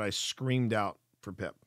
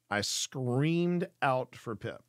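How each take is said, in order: First: Said in the usual way. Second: Slow, each word weighted, stress on screamed; slow emphatic repeat. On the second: Shown as a demonstration. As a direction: drag it out to drive the point home.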